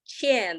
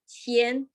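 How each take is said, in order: First: The pitch falls sharply from high to low. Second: The pitch stays high and level. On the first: It means owe. "the fourth tone" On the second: It means humble. "the first tone"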